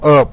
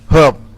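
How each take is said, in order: First: The word starts with a silent h. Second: The word starts with a pronounced h sound. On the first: It means the plant used for flavouring. The speaker calls it right. "you have to pronounce herb" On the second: It sounds like the name of a person. The speaker calls it wrong. "when you said herb, I think about my uncle"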